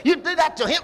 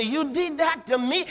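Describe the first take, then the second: First: "him" said as the wrong target; the line he doesn't say, with "him"; "him" as the contrasted wrong word; wrong take, stress on him. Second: "me" lifted and leaned on at the end; stress on me. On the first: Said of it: "He doesn't say". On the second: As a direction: land the weight on "me". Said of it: "No, me". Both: Shown as a demonstration.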